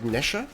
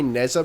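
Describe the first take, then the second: First: The middle consonant is a sh-like sound. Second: The middle consonant is a plain z sound. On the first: The speaker calls it right. "It's like Nesha or something like that" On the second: The speaker calls it wrong. "I say Neza, but I think that's wrong"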